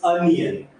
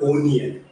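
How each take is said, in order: First: The first vowel is an 'uh' sound. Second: The first vowel is an 'oh' sound. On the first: The speaker calls it right. "It's अनियन" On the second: The speaker calls it wrong. "It's not ओनियन"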